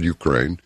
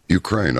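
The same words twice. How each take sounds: First: Retold quote, shy and hesitant with a slight rise; a little sheepish. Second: Said in the usual way. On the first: Ukrainian woman answering where she is from, a little sheepish. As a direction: say it a bit sheepishly, trailing up. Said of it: "a little sheepishly". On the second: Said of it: "And I said".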